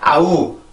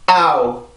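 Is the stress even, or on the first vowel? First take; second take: even; first vowel. First: Both vowels get equal stress. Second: The first vowel is stressed, the second fades. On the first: The speaker calls it wrong. "이게 아니라" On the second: The speaker calls it right. "앞에 있는 A 발음을 하면서 성대를 긴장을 시키고"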